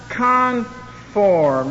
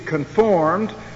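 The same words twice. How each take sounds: First: The stress is on the first syllable. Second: The stress is on the second syllable. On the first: The speaker calls it wrong. "I want to emphasize the other syllable" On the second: The speaker calls it right. "should be conformed"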